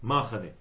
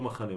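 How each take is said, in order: First: The stress is on the first syllable. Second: The stress is on the last syllable.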